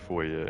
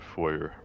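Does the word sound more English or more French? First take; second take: French; English. First: The word is said with a French-sounding ending. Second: The word is said with an English-sounding ending. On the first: This is how people in Canada usually say it. "in Canada people usually say foyer. It sounds more French" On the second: This is how most people in the US say it. "in the U S most people say foyer"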